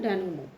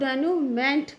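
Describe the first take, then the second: First: The word ends with an 'mo' vowel. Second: The word ends with a 'ment' sound. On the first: The speaker calls it right. "इसका जो correct pronunciation है वो है डेनोमो" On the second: The speaker calls it wrong. "कई लोग इसको जब हम प्रोनाउंस करते हैं तो डेनोमेंट करते हैं, जो कि कम्प्लीटली रॉन्ग है"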